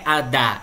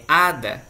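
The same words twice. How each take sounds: First: Ada stressed on the last syllable, a-DA; wrong stress. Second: Ada stressed on the first syllable, Á-da; right stress. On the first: Teacher demonstrating the wrong stress, a-DA. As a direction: lean on the final DA of ada. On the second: Teacher showing the correct stress, Á-da. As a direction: hit the first A of ada, let da fall away. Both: Shown as a demonstration. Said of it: "a sílaba forte está no H A".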